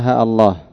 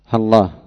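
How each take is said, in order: First: A short a, then a glottal stop before Allah. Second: Ha and Allah merge with no long vowels. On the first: "بحذف الألف وثبوت همزة القطع" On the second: "باللام بعد الهاء بغير إظهار شيء من الألفين"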